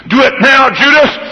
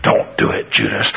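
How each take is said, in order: First: High, louder push; urging tempter. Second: Whispered, much softer; pleading whisper. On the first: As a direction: egg him on. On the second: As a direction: warn him under your breath. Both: Acted. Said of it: "ping-pong ball going side to side".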